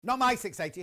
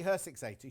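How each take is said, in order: First: "my" punched higher and louder in "Not my six eighty"; stress on my. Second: "her" landed low and firm in "her six eighty"; stress on her. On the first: Host correcting himself to viewers, stressing "my". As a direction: hit "my" hard to correct yourself. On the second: Host fixing his slip for viewers, stressing "her". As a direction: lean on "her" as the correction. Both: Real, not acted.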